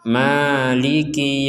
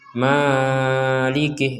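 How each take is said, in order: First: The first vowel is held briefly, two beats. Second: The first vowel is stretched out too long. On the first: The speaker calls it right. "panjang dua harokat saja" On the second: The speaker calls it wrong. "itu kepanjangan"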